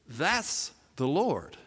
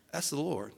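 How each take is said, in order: First: Very slow, spaced-out words; repeated to be heard. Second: Soft, low-key realization; under his breath. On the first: John to Peter working so hard, slow and distinct. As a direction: spell it out slowly for a distracted listener. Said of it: "Peter can barely hear it". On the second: John to Peter who can barely hear, under his breath. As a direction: say it softly, almost to yourself. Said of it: "he kinda says under his breath". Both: Acted.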